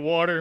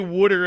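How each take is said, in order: First: It is said in a neutral accent without 'wooter'. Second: It is said in a Philadelphia accent, like 'wooter'. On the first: This is the accent the speaker uses now. "I say water" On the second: This is the old accent the speaker grew up with. "I don't say water anymore"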